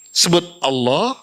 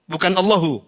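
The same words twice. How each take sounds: First: "Allah" with no final vowel. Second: "Allahu" with the final -u spoken; Allahu, not Allah. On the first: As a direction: end "Allah" cleanly, no "-u". (ucapkan "Allah" tanpa akhiran u) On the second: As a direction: add the "-u" after "Allahu". (ucapkan "Allahu" dengan akhiran u) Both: Shown as a demonstration.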